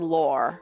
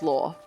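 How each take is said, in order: First: It ends with an audible r sound. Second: It sounds exactly like law, with no r. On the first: "in North American accents, they tend to be law and lore" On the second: "that's also pronounced as law"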